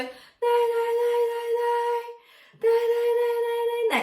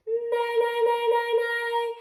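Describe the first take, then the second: First: High, breathy nay exercise; airy falsetto nays. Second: High "nay" with a strong N, resonating in the nose; nasal nay. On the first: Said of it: "Try it really breathy first". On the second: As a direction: lean on the N of "nay". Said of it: "emphasize the N a bit more". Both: Shown as a demonstration.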